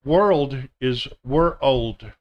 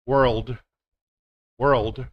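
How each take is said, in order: First: Put-on "World" said slowly like "we're old"; world as two words. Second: "world" as one smooth syllable; world said together. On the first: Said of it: "like you're saying two words". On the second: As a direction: blend "we're old" into one "world". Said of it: "you just say 'em together". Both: Shown as a demonstration.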